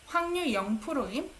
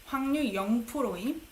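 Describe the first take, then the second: No difference in how they are said.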